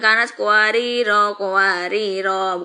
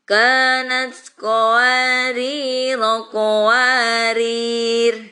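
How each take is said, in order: First: The last word ends on a vowel. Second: The last word ends on a bare consonant. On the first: The speaker calls it wrong. "bukan seperti itu" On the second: The speaker calls it right. "jadi disukunkan roknya yang tadi karena pendek"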